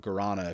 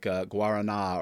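First: It is said with an American pronunciation. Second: It is said with a non-American pronunciation.

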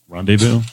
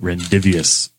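First: The word is said with a silent final s. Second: The word is said as spelled, final s sounded. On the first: The speaker calls it right. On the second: The speaker calls it wrong.

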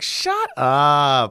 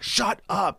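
First: It is said in a cute, playful way. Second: It is said in a mad, angry way.

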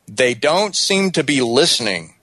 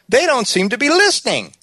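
First: The voice falls at the end. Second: The voice rises at the end. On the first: It is a statement reflecting what she said. The speaker calls it right. "Hear how the tone goes down at the end" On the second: It is a question that doubts what she said. The speaker calls it wrong. "that sounds like a question"

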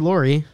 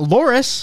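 First: The name ends without any S sound. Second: The name ends with an audible S sound.

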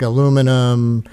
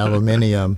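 First: It is said the American way, four syllables. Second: It is said the British way, five syllables.

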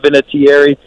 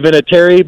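First: The name is said with every vowel fully enunciated. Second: The name is said with reduced, run-together syllables. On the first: This is how others say it, closer to the spelling. "pronounce it with more enunciation" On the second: This is how the family says it. "we say Vinatieri"

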